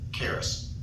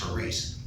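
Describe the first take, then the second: First: The word begins with a hard K sound. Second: The word begins with a breathy H sound. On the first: The speaker calls it wrong. "that's the way we pronounce it" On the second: The speaker calls it right. "in Greek, the C is silent. So really it's haris. The I is, is a long E"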